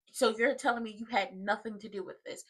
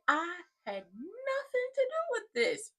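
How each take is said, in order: First: Low-key sceptical question; retold questioning. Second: High, drawn-out whiny protest; mock denial. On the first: Woman questioning Joey about his part, imitated softly. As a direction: imitate her checking his denial, softly. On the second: Joey denying any part to her, mock high protest. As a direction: imitate him protesting innocence, high and stretched.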